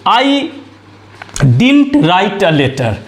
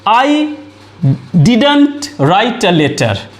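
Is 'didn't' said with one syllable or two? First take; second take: one; two. First: 'Didn't' is reduced to one syllable, 'dint'. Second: 'Didn't' is said in full with two syllables. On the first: "या डिंट बोलेंगे" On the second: "इस तरह से डिडंट बोलेंगे"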